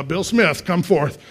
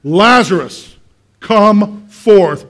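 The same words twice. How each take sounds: First: Said in the usual way. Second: Loud commanding call, word by word; Jesus. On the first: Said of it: "and go, uh". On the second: Acted. Jesus calls Lazarus out of the grave, commanding shout. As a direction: summon the dead with a big, measured shout. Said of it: "he calls him out of the grave".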